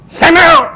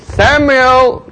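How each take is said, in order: First: The name is called harshly. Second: The name is called gently.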